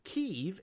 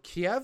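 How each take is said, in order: First: The name is pronounced the Ukrainian way. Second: The name is pronounced the Russian way. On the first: "Kiev is the Ukrainian pronunciation" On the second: "Kiev is the Russian pronunciation"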